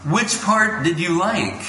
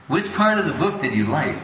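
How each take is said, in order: First: Gentle probing guru. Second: Said in the usual way. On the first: Retold or imitated. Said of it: "He goes". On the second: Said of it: "That's what he said to him".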